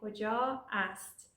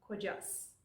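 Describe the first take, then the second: First: The two words are said as separate words. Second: The two words are linked into one word. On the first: "we're saying کجا است" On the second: "we are linking that to become کجاست"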